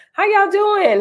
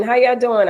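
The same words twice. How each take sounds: First: Much higher, singing the question; high greeting. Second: Said in the usual way. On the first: Real, not acted. Host asks her viewers how they are, pitched way up. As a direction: lift it way up on y'all.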